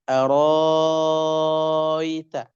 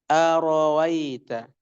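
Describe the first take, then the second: First: The hamzah becomes a long vowel held six counts. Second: The second hamzah is softened, not fully pronounced. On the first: "ibdal, merubah hamzah menjadi mad, dibaca enam harakat" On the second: "kalau tashil berarti arawaita"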